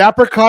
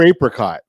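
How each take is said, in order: First: The first syllable sounds like 'app'. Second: The first syllable sounds like 'ape'.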